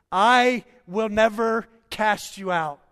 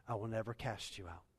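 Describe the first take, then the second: First: Loud, higher, slow proclamation; proclaiming loudly. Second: Softer, lower, settled; gentle promise. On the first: Pastor voicing Jesus' promise to believers, loud proclamation. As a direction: thunder it from the pulpit. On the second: Pastor voicing Jesus reassuring his child, soft promise. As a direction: say it close and tender. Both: Acted.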